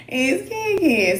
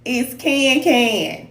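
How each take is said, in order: First: Ken Ken drawn out with the vowel of can. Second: Ken Ken said slowly with the Kansas City a, like kinfolk; Kansas City accent. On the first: Correcting a viewer, says Ken Ken slowly like can. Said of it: "like C A N". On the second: Explaining her name, says Ken Ken slowly with her Kansas City vowel. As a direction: say Ken Ken slow, with the vowel of can. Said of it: "I know that's the accent". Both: Shown as a demonstration.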